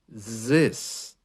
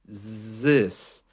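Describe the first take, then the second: First: It begins with a buzzing z sound. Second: The same.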